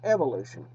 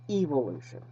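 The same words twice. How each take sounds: First: The word is said in an American accent. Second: The word is said in a British accent. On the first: "In the United States, it's pronounced evolution" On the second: "The British pronunciation, though, is closer to the truth"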